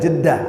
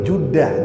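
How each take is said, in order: First: The first vowel sounds like e. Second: The first vowel sounds like u. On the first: This is how people say it today. "tapi orang sekarang mengatakan Jeddah" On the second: This is the classical Arabic form.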